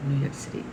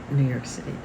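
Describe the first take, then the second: No difference in how they are said.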